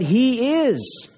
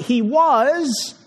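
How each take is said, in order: First: IS drawn out slowly, higher, then falling; stress on IS. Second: WAS drawn out slowly, higher; stress on WAS. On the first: Preacher insisting Christ still reigns, stress on IS. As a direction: land long and firmly on "is". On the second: Preacher correcting the tense for listeners, stress on WAS. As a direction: lean long on "was" and let it fall. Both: Shown as a demonstration. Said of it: "It's not he was, but he is".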